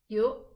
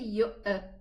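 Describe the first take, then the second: First: The glottal stop ends in a clean silent closure. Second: The glottal stop is released with an echoing bounce. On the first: The speaker calls it right. "it's just yu. It's just a pause" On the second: The speaker calls it wrong. "Don't say yu'a"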